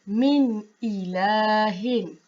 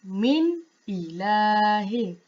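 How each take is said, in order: No difference in how they are said.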